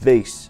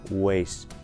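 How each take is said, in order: First: It begins with a V, lip against teeth. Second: It begins with a rounded W sound. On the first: The speaker calls it right. "прикусывайте нижнюю губу верхними зубами, вот так" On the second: The speaker calls it wrong. "нельзя говорить таким образом"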